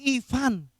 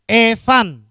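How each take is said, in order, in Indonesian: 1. Nama itu diawali dengan vokal 'ee'. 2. Nama itu diawali dengan vokal 'eh'. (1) "bukan Evan, tapi Ivan" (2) "orang ganti I jadi E"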